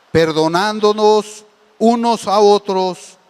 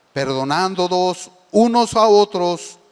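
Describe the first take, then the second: The two takes are said the same way.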